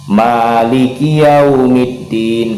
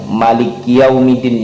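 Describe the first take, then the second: First: The phrase is said slowly and evenly. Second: The phrase is said too quickly. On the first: The speaker calls it right. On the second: The speaker calls it wrong.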